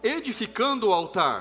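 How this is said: It is said in a bold, prophetic voice.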